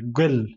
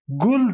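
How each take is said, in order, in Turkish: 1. Ünlü 'ö' sesine yakındır. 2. Ünlü düz bir art 'u' sesidir. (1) "Göl der. Hani ö'ye yakın bir ses" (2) "Gul demedik. Gul desek e, Kürtler gul demez"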